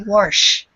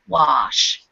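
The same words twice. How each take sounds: First: A British accent, with a faint R-like sound. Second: A North American accent, wide open, with no R. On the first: "The British almost put like an R in there. They say wash" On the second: "in North America, we tend to say wash with a very wide open mouth and no R sound"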